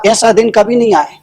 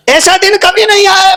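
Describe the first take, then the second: First: Said in the usual way. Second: Chanted, high, sustained calling voice; chanted, cry it out on a high held pitch; acted chant, ringing and repetitive. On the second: Fool chants the new phrase aloud.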